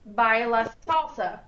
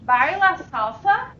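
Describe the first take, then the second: First: The pitch stays flat to the end. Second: The pitch rises at the end. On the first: It states that the person salsa dances. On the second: It asks whether the person salsa dances. "Question, ... My voice goes up at the end"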